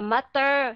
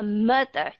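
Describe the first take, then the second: First: The unstressed vowel is a full vowel. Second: The unstressed vowel is a reduced schwa. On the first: The speaker calls it wrong. "chứ nó không phải là mother, không thể nói như vậy được" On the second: The speaker calls it right. "nó vẫn là mother"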